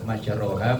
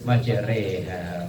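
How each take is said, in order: First: The vowel after the r is an open 'a'. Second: The vowel after the r is an 'e'.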